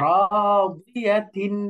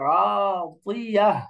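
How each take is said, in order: First: The word ends with a final -tin sound. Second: The word ends with a silent-vowel -h sound. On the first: The reader continues without stopping. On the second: The reader stops on this word.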